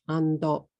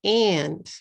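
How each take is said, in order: First: "ando" in two short beats, ending on o; Japanese-style AND with an added final vowel; katakana English. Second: "And" as one beat, ending on the d; English AND with no vowel after it; one-syllable English. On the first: Teacher contrasting with English AND, katakana English. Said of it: "if you say them in katakana". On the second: Teacher contrasting with katakana, one-syllable English. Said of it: "One syllable words become two". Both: Shown as a demonstration.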